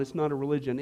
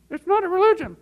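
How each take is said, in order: First: Said in the usual way. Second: Very high, loud mock-eager exclamation; hammed-up stock answer. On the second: Giving the correct response for laughs, hammed-up high voice. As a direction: pipe it up high like an overeager pupil.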